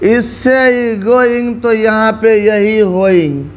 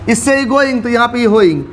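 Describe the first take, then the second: First: The phrase is said very slowly. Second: The phrase is said quickly. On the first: "अच्छा चल slow देख, एकदम slow motion में" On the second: "sir जी speed में मत कीजिए"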